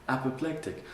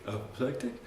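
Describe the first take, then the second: First: Said in the usual way. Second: "Apoplectic?" with a rising question tune; questioning echo. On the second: Shown as a demonstration. Checking the word with the teacher, rising question tune. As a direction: ask "Apoplectic?" back, voice going up at the end. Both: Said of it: "Did you say apoplectic?".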